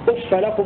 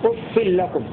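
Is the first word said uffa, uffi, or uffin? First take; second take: uffa; uffin. First: The f ends in a short a vowel. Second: The f ends in i plus an n sound. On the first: "هكذا يقرأ ابن كثير وابن عامر بفتح الفاء" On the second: "بكسر الفاء مع التنوين"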